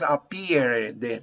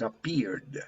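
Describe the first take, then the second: First: The ending is said as an extra syllable. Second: The ending is said as a bare d. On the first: The speaker calls it wrong. "But you don't pronounce appeared. No, no, no" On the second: The speaker calls it right. "you have to pronounce d"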